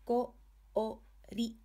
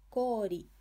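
First: Ko-o-ri one beat at a time; syllable-by-syllable "Ko-o-ri"; sounded out. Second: Kori joined up, o held long as "koori"; long vowel. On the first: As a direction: separate each kana of Ko-o-ri with a pause. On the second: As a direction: blend it into one word, stretching the o of Kori. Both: Shown as a demonstration. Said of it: "a word using hiragana o".

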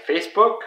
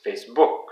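First: Said in the usual way. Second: "Facebook" with stress moved onto "book"; French pronunciation. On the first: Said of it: "with a company like Facebook". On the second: Shown as a demonstration. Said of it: "in French it's Facebook".

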